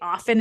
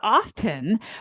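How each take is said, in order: First: The t sound is left out. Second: The t sound is clearly pronounced. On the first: The speaker calls it right. "often is the correct form" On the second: The speaker calls it wrong. "not often"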